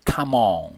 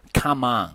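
First: "come on" with a small, rounded British o. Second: "come on" with a wide-open "ahn"; American "on". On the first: Teacher contrasts the cheer-on example, "come on" with British rounded "on". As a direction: round the lips on "on", British style. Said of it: "如果发成on的话". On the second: Teacher gives a cheer-on example, "come on" with American open "ahn". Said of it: "美式英语它经常把这个". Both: Shown as a demonstration.

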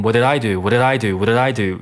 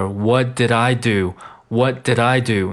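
First: Rapid, rolling "whaddidaido"; fast linked reading. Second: Slow, separated "what did I do"; slow linked reading. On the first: Teacher showing students the sped-up phrase, fast delivery. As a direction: rattle the syllables off like an engine starting. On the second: Teacher building up the phrase, slow linked delivery. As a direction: step carefully through the linked syllables. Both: Shown as a demonstration. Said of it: "那读快了就变成".

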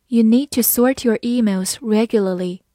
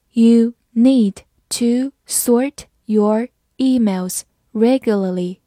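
First: Said in the usual way. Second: Very slow, each word spaced; slow reading. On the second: Shown as a demonstration. Teacher slowly reading the example sentence. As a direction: read it slowly for learners. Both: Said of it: "好，慢读一遍".

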